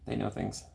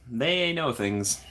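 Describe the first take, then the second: First: Softer repeat of "They know things"; a quiet knowing aside; quiet echo. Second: Slow, deliberate "they know things"; impressed and knowing. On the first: Real, not acted. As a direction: murmur it to yourself. Repeating her own reaction. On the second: Retold or imitated. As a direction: draw it out knowingly. Quoting her own reaction.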